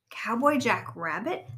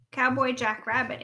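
First: Slow, drawn-out disbelief; amazed question. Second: Said in the usual way. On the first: A narrator's reading. Rabbit hears his favorite show's name, amazed. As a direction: echo it slowly, rising in delighted surprise. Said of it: "cried Rabbit". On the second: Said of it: "answered Robot".

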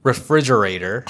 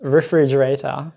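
First: Refrigerator with full American r sounds; American accent. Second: Refrigerator slowly in a Japanese accent; tapped r and open final "ta" in refrigerator, Japanese-accented. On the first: Showing his co-host the authentic word, American accent. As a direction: model "refrigerator" in American English, r-colored ending. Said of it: "can you say it?". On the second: Reading a listener's favorite word aloud, Japanese accent. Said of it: "mine is not like authentic American pronunciation". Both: Shown as a demonstration.

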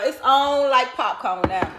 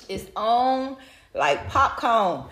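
First: Said in the usual way. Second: "It's on" set apart by a pause, then "like popcorn" drawn out slow; slow emphatic repeat. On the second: Shown as a demonstration. Host repeating her catchphrase to listeners, slowed for emphasis. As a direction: stretch out "like popcorn" for punch.

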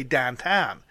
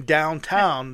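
First: Lazy, slurred Pittsburgh "downtown"; Pittsburgh pronunciation. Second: Said in the usual way. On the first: Shown as a demonstration. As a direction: slur "downtown" with flattened ow vowels, like "dahntahn". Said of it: "they say downtown". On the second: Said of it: "Instead of saying downtown".

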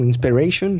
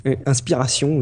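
First: "Inspiration" said the English way, in-spe-RAY-shun; English pronunciation. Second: "Inspiration" said the French way, in-spi-ra-SYON with a nasal ending; French pronunciation. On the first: Host retrying the site name, English reading. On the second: Host unsure how to pronounce the site name, French reading. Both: Shown as a demonstration. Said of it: "je sais pas comment je dois dire".

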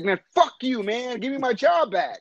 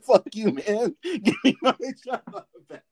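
First: Mock angry retort. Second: High mock yell breaking into laughter; laughing mock retort. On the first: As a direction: throw it back at him, half joking. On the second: Friend repeating the fired worker's retort, laughing. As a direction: laugh through the angry line.

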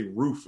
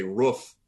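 First: "roof" with a long oo; "roof" as in general American; standard "roof". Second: "roof" with a short vowel; "roof" rhyming with "woof"; regional "roof". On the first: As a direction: say roof with the vowel of food. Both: Shown as a demonstration. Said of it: "I change little words".

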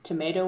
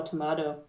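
First: Tomato said "tuh-MAY-toh"; long A as in "day" in tomato. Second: Tomato said "tuh-MAH-toh"; broad A as in "father" in tomato. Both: Shown as a demonstration. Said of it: "You say tomato or tomato?".

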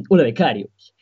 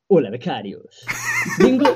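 First: Sports talk show host voice, straight face; composed TV host greeting; Josep Pedrerol impression. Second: Trying not to laugh. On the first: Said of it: "Has imitado de puta madre". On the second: Acted. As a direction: laugh breaking through the greeting. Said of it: "por favor, no te rías".

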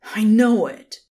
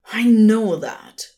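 First: Loud angry snarl; snarled again. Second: Loud angry snarl. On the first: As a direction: bite out each word, furious. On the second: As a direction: snap it back in fury. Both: A narrator's reading. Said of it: "the Son of God snarled".

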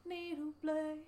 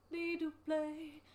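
Both takes have the same delivery.

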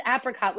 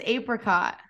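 First: "apricot" said AP-ri-cot; reported pronunciation. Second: "apricot" said AY-pri-cot; reported pronunciation. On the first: Host reports how Scott says it, short-A apricot. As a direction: relay "apricot" with the A of apple. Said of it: "but Scott says apricot". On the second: Co-host reports his answer, long-A apricot. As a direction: relay "apricot" with the A of ape. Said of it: "He says apricot". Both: Retold or imitated.

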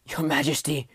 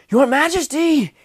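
First: Weak wounded voice, coughing; wounded knight, coughing through pain; painful cough. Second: High, loud, slow scream of the title; screamed call. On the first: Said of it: "coughed pain-, Morgan painfully". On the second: Wounded knight screams for the king ahead, loud and high. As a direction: stretch it out to reach him. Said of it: "he screamed". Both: A narrator's reading.

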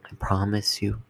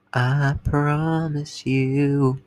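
First: Said in the usual way. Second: Slow drawn-out promise. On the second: Shown as a demonstration.

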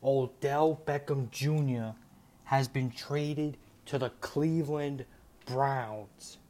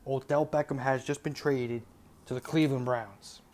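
First: Slow, weighty announcement, each name drawn out; slow breaking news. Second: Said in the usual way. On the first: Real, not acted.

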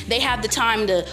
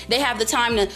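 Both takes have the same delivery.

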